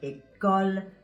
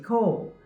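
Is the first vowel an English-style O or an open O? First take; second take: open O; English-style O. First: The vowel is an open French O. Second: The vowel is an English-style O. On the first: The speaker calls it right. "this is the vowel sound that you have in words like" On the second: The speaker calls it wrong. "you might say ... But that's not the way they're pronounced in French"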